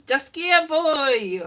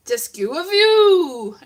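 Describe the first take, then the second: First: FWY drawn out as "voy"; slow "Dysgu a fwy", ending on an "oy" glide; corrected motto. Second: FW drawn out high as "view"; misremembered motto. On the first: Speaker correcting their own school motto mistake, carefully pronounced. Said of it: "It's not, it's". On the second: Speaker recalling the motto believed all through school, mispronounced. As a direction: say "Dysgu a fw" slowly, rising into a long "oo". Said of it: "I think it was". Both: Shown as a demonstration.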